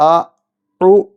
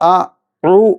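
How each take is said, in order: The two takes are said the same way.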